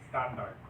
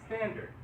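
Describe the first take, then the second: First: It is said with Filipino vowels, jaw dropped. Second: It is said with American vowels. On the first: The speaker calls it wrong. "you're still going to say it like this. Standard. That's how we Filipinos speak" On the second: The speaker calls it right. "What are the American vowels?"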